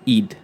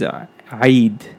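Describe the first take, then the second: First: It starts directly on a plain English vowel. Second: It starts with a tight throat sound before the vowel. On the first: "the way you pronounce it in English is E-I-D" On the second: "the way you say it in Arabic is Eid"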